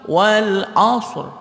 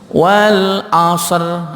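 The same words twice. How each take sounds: First: The r follows the s directly, with no vowel. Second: A vowel sound is inserted between s and r. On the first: The speaker calls it right. "Tapi langsung wal 'ashr" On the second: The speaker calls it wrong. "itu salah. Jadi nggak ada bunyi ser atau bunyi asr"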